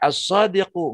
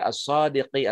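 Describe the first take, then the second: First: The word ends with an u vowel. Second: The word ends with an i vowel. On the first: The speaker calls it right. "dibaca as-sadiqu" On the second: The speaker calls it wrong. "enggak dibaca as-sadiqi"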